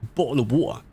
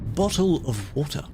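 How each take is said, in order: First: It is said fast. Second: It is said slowly.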